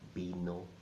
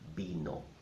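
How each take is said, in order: The two takes are said the same way.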